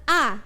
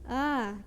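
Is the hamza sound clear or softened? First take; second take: clear; softened. First: The hamza is pronounced clearly and fully. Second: The hamza is softened, between hamza and alif. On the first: "A yang pertama itu dibaca biasa ya" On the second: "kalau yang kedua itu agak diringankan"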